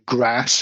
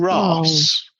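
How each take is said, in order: First: The vowel is short, as in a northern accent. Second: The vowel is long, as in a southern accent.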